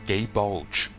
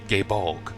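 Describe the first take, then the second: First: The name ends with a soft j sound. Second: The name ends with a hard g sound. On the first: The speaker calls it wrong. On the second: The speaker calls it right.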